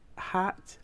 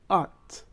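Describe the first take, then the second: First: The word begins with a clear h sound. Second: The word begins with no h sound.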